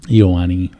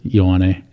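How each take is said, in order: First: The name begins with two separate vowels, ee-oh. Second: The name begins with a single 'yo' sound. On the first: Someone else said it. The speaker calls it wrong. "they would pronounce my name Iowani" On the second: This is how the speaker says it. The speaker calls it right. "it's just like, yo"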